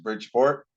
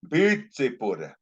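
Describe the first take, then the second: First: It is said with English pronunciation. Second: It is said with Paiute-style pronunciation. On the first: "Now they Pyuticize Bridgeport" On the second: "they say Bitsipur"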